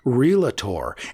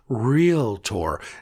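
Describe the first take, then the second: First: The word is said with three syllables. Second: The word is said with two syllables. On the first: The speaker calls it wrong. "not realtor. not three. Avoid adding extra syllables" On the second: The speaker calls it right. "The word is realtor, There are only two syllables in the word realtor"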